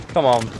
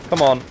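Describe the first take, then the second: No difference in how they are said.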